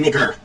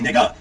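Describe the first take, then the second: First: The word ends with an 'er' sound. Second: The word ends with an 'ah' sound. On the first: The speaker calls it wrong. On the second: The speaker calls it right. "it doesn't have the E R"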